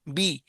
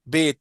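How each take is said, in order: First: The vowel sounds like 'ee'. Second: The vowel sounds like 'ay'. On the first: This is the Arabic way of saying it. The speaker calls it right. "अरबी में क्या पढ़ेंगे?" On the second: This is the Urdu way of saying it. The speaker calls it wrong. "ये क्या है, उर्दू में है।"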